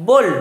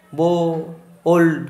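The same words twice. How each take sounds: First: "বোল্ড" as one short unbroken syllable; in one breath. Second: "বো, ওল্ড" broken into two parts with a long gap; split in two. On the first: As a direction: say "বোল্ড" all at once, without a break. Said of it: "একটা নিঃশ্বাসে বললে". ("বোল্ড" একবারে, এক নিঃশ্বাসে) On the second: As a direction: say "বো", pause, then "ওল্ড". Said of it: "এরম বললাম?". ("বো, ওল্ড" দুই ভাগে ভেঙে, মাঝে থেমে) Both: Shown as a demonstration.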